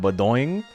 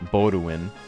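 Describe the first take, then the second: First: The name ends with a bouncy 'boing' sound. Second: The name ends without a bouncy 'boing' sound. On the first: The speaker calls it wrong. "like someone, like, jumping on a bed" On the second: The speaker calls it right. "It's close to Baudouin"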